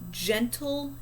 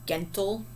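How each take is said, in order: First: The G sounds soft, like a J. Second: The G sounds hard, as in go. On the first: The speaker calls it right. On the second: The speaker calls it wrong.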